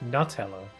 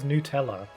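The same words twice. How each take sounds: First: The first syllable sounds like 'nut'. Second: The first syllable sounds like 'new'. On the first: The speaker calls it right. "It's literally made out of nuts" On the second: The speaker calls it wrong. "American pronunciations that are completely illogical"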